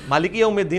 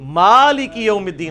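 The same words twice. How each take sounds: First: The first vowel is short. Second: The first vowel is drawn out long. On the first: The speaker calls it wrong. "नहीं" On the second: The speaker calls it right. "मीम के ऊपर खड़ी है, ये इस इन दोनों से डबल खींचा जाएगा"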